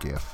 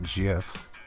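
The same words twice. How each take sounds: First: The word begins with a hard g sound. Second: The word begins with a soft j sound. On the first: The speaker calls it right. "I prefer GIF. Like gift" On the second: The speaker calls it wrong. "Not GIF"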